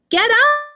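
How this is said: It is said with excitement.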